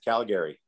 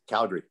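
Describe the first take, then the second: First: The middle vowel is clearly pronounced, three syllables. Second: The middle vowel is dropped, two syllables. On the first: This is how outsiders from Ontario say it. The speaker calls it wrong. "everybody from Ontario says Calgary" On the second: This is how locals say it. The speaker calls it right. "It's Calgary. So take the second A out"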